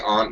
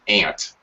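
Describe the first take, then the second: First: It is said in an Australian accent. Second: It sounds like the insect name 'ant'. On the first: "Australians say aunt" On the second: "a couple of dialects in America that say ant, like the insect"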